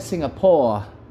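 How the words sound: It is said in an Australian English accent. "kalau kalau Australia"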